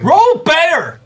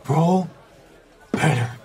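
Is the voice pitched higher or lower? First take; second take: higher; lower. First: It is said at a higher pitch. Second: It is said at a lower pitch.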